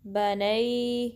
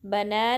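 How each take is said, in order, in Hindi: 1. यह 'a' से 'ee' की ओर फिसलती आवाज़ पर खत्म होता है। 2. यह सादे 'a' स्वर पर खत्म होता है। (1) "इसको आप पढ़ेंगे नई बनई" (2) "बना नहीं"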